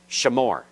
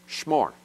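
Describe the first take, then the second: First: A short vowel is heard between sh and m. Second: No vowel is heard between sh and m. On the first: This is the classical pronunciation. "Classical Hebrew says shamor" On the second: This is the modern pronunciation. "modern Hebrew says shmor, The schwa is totally silent in modern Hebrew"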